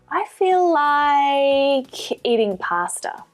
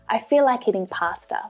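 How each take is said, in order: First: The vowel in "like" is stretched out long. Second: The sentence flows without a pause or stretched vowel.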